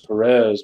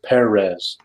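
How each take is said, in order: First: The stress is on the second syllable. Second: The stress is on the first syllable. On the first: The speaker calls it wrong. "Everyone says Perez" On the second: The speaker calls it right. "that little thing above the e means you're supposed to pronounce it Perez"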